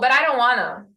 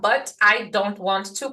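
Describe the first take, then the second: First: 'Want to' is reduced to 'wanna'. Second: 'Want to' is said in full. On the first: It copies exactly how the person spoke. The speaker calls it right. "desse jeitinho que eu falei" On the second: It follows the written form, not the speech. The speaker calls it wrong. "Você não vai falar"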